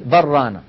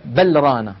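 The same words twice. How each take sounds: First: بل ران with the lam of بل merged into the ra, said as بران. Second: بل ران with the lam of بل pronounced distinctly before ران; clear lam not merged. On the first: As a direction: assimilate بل into ران as one doubled r. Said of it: "تقول بل ران". (إدغام اللام في الراء) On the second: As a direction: separate بل and ران, sounding the lam fully. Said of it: "هكذا مظهرة". (إظهار اللام في بل ران) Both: Shown as a demonstration.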